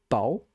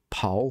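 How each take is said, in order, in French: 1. Le p se prononce sans souffle d'air. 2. Le p se prononce avec un souffle d'air. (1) "Le premier" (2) "Il faut rajouter ça"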